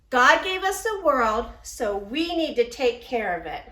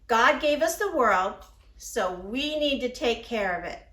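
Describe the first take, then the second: First: It is said a little louder. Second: It is said at normal volume.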